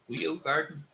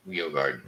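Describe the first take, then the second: First: Weo Garden? asked with a high rise; questioning name tryout. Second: Weo Garden. low and falling; settled name. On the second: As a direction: state Weo Garden. firmly. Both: Shown as a demonstration.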